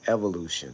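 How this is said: It is said with an American pronunciation. "in America, we call it evolution"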